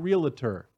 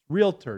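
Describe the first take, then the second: First: The word is said with three syllables. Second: The word is said with two syllables. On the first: The speaker calls it wrong. "not realtor" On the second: The speaker calls it right. "That's two syllables, not three. Realtor"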